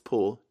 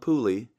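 First: The name ends cleanly on the l sound. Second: The name ends with an added ee vowel. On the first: The speaker calls it right. "It's Poole. Silent E at the end there" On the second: The speaker calls it wrong. "don't call him Pooley"

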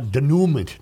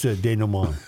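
First: The ending is sounded as 'ent'. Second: The ending is sounded without 'ent'. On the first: The speaker calls it wrong. "I stumbled on a word yesterday I should not have stumbled on" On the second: The speaker calls it right. "No, it's denouement"

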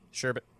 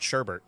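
First: No R sound is heard in the second syllable. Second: An R sound is heard in the second syllable. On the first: "no one says sherbet, but that's what it is" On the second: "I've always said sherbert"

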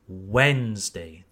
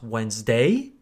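First: The stress falls on the first syllable. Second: The stress falls on a later syllable. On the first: The speaker calls it right. "the first syllable" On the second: The speaker calls it wrong. "so not Wednesday"

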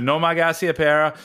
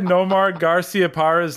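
First: It is said in a Boston accent. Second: It is said in a neutral accent.

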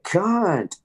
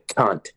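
First: It is said in a friendly, affectionate tone. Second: It is said in a hostile, insulting tone.

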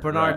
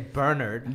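First: The name is said in an American accent. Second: The name is said in a British accent.

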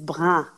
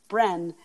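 First: The word is said with a French vowel. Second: The word is said with an anglicized vowel. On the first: The speaker calls it right. "the word is Brin" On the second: The speaker calls it wrong. "I would always pronounce it Bren"

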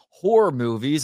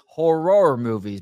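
First: Horror is said casually, sounding like whore. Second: Horror is said with exaggerated, laboured articulation. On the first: It sounds like films about prostitution. "what movie about prostitution are you trying to watch?" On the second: It sounds like a speech impediment. "if I say it like that, it sounds like I have a speech impediment"

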